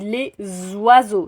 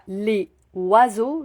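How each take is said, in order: First: The two words are joined with a linking z sound. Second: The two words are said without a linking z sound. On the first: The speaker calls it right. "je dis ... Nous devons faire la liaison" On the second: The speaker calls it wrong. "je ne dis pas"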